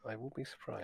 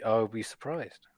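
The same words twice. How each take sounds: First: Much softer dry repeat; deadpan echo. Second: Said in the usual way. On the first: Retold or imitated. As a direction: mutter it again under your breath. Herhaalt droog zijn eigen antwoord.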